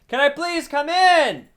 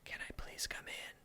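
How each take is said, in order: First: It is yelled loudly. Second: It is whispered quietly.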